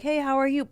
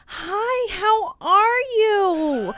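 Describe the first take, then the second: First: It is said in a normal, friendly tone. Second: It is said in a phony, overly sweet tone.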